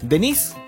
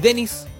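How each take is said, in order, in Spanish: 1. El nombre se acentúa como la forma femenina. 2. El nombre se acentúa como la forma masculina.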